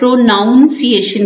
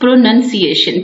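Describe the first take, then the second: First: The second syllable sounds like 'noun'. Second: The second syllable sounds like 'nun'. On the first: The speaker calls it wrong. "हम लोग अक्सर गलतो लाम में से प्रोनाउंसिएशन कह देते हैं" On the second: The speaker calls it right. "It's not a नाउन, it's प्रोनाउंसिएशन"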